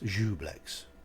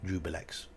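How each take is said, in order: First: It has two syllables with no 'i' sound. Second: It has a 'bi' syllable in the middle. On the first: "I don't mind Jublex" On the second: "How many people call this Jubilex?"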